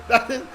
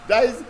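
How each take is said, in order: The two takes are said the same way.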